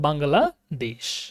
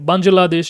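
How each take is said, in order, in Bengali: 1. মাঝের ব্যঞ্জনটি 'gh' ধ্বনি। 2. মাঝের ব্যঞ্জনটি 'j' ধ্বনি। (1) "জিমও যদি থাকে তার উচ্চারণ হচ্ছে বাংলাদেশ।" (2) "জিমটাকে এখানে বাংলাদেশ এরকম উচ্চারণ করে। এটা সম্পূর্ণ ভুল উচ্চারণ।"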